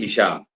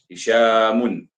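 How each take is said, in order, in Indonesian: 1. Nama itu berakhir dengan bunyi m polos. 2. Nama itu berakhir dengan bunyi -un yang ditambahkan. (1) "Kalau berhenti" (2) "mimnya memang dibaca dengan tanwin"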